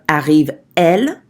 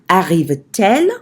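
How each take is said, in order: First: The words meet with no T sound. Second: A T sound joins the two words. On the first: The speaker calls it wrong. "instead of" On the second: The speaker calls it right. "with hyphen T hyphen"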